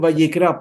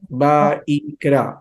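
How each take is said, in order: First: The middle letter is read as a Spanish 'll' consonant. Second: The middle letter is read as an 'ee' vowel. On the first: The speaker calls it wrong. "no es Vallicra porque no es castellano" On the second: The speaker calls it right. "esa Y con la I latina en hebreo suena como una I"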